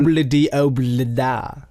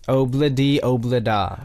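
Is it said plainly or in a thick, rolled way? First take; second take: thick; plainly. First: It is said thickly, rolled off the tongue. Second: It is said plainly and neutrally.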